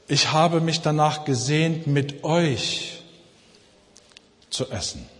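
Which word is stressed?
euch. The stress falls on the word euch. The company of those people was what was longed for. "Er wollte die Gemeinschaft mit ihnen"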